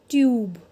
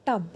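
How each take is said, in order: First: "tube" as tyoob, long yoo; long vowel. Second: "tub" with short uh; short vowel. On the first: Teacher shows students the added E, long vowel in "tube". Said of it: "when we will add a E". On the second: Teacher gives students the first word, short vowel in "tub". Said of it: "वो shorter है". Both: Shown as a demonstration.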